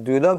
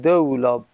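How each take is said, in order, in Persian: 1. مصوت اول صدای 'u' است. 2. مصوت اول صدای 'a' است. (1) "به ضم الدال" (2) "دار رو فتحه بده، میگیم دولاب"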